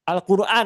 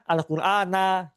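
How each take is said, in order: First: The word ends on n with no vowel. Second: The word ends with a short a vowel. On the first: The speaker calls it wrong. "suka men mensukunkan membaca isim" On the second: The speaker calls it right. "atau apa? Al-Qur'ana gitu"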